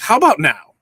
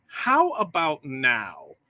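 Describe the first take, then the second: First: Loud quick mic check. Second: Slow drawn-out mic check. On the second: Host testing his mic for viewers, slowly repeating the question. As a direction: stretch every word of "How about now?" out slowly. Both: Real, not acted. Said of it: "mic check".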